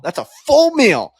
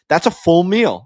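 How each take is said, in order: First: "full" stretched out with a big pitch swing; stress on full. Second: Said in the usual way. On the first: Real, not acted. Host insisting on the slice's size, stress on "full". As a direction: lean hard and long on "full". Repeats it for emphasis.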